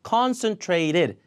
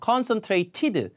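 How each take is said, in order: First: The t before -ed is a flap. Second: The t before -ed is a clear t. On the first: The speaker calls it right. "lit L처럼 발음됩니다" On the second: The speaker calls it wrong. "이렇게 안 되고"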